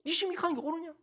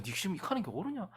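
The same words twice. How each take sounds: First: Higher, sharp scolding question; a parent rebuking a defiant child, raised and sharp. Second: Said in the usual way. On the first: Retold or imitated. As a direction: press the child hard on it. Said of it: "니 지금 뭐 때문에 이거?". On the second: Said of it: "야".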